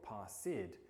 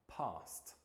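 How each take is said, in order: First: The ending is an extra 'id' syllable. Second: The ending is a single 't' sound. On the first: The speaker calls it wrong. "instead of saying something like passed or passid" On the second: The speaker calls it right. "we should be saying passed"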